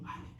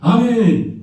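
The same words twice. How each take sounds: First: It is said quietly and timidly. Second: It is said loudly and boldly.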